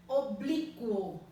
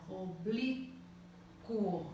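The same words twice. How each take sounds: First: Said in the usual way. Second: Oblíquo pulled apart slowly, O-blí-quo, each syllable separate. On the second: Shown as a demonstration. Teacher to pupils, syllabifying slowly. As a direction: spell out Oblíquo in slow, separate syllables for the class. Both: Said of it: "Separar em sílabas".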